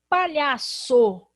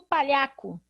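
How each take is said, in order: First: The middle consonant is an s sound. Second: The middle consonant is a k sound.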